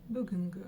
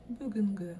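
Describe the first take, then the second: Both takes have the same delivery.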